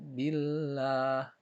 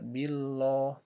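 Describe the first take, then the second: First: The l is pronounced light and thin. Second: The l is pronounced heavy and thick. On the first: The speaker calls it right. "tapi billah" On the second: The speaker calls it wrong. "Tidak boleh dibaca billah"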